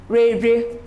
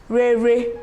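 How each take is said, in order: The two takes are said the same way.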